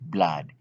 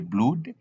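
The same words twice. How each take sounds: First: The vowel is said as an ah sound. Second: The vowel is said as a U sound. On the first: The speaker calls it right. "but we say blood" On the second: The speaker calls it wrong. "we cannot read the blood"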